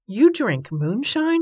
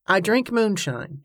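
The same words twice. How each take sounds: First: Slow, higher-pitched startled question. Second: Said in the usual way. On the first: A narrator's reading. Riverman learns the lady drinks moonshine, startled. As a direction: draw out the disbelief, pitch raised.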